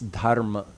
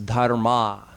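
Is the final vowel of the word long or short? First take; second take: short; long. First: The final vowel is short and clipped. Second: The final vowel is long and drawn out. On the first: The speaker calls it right. "It's a short a on the end of the of the ma" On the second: The speaker calls it wrong. "people have started pronouncing it as dharma. But there's no such word"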